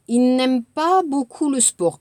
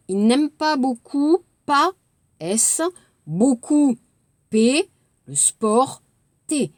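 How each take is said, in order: First: Said in the usual way. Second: «il n'aime pas beaucoup» découpé avec les lettres muettes; mot par mot. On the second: Shown as a demonstration. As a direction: dicter E, S, P, T muets. (correction lente mot à mot) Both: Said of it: "barrer les lettres".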